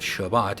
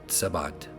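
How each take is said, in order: First: The word begins with a sh sound. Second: The word begins with an s sound. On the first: The speaker calls it right. "It starts with the the uh, shin" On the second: The speaker calls it wrong. "not the ts"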